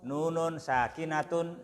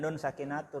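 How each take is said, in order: First: The first word carries an added -un ending. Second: The first word is a bare single syllable. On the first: The speaker calls it right. "nah gitu" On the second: The speaker calls it wrong. "Jangan nun sakinatun lah"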